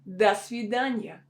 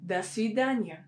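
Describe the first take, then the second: First: The first word sounds like 'da'. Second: The same.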